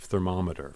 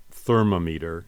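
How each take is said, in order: First: Said in the usual way. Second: "thermometer" wrongly said as THER-mo-MEE-ter; misplaced stress. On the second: Shown as a demonstration. Teacher imitating someone's strange wording, "thermometer" stressed as THER-mo-MEE-ter. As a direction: lean on the first syllable of "thermometer", with a long "mee". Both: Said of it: "instead of thermometer".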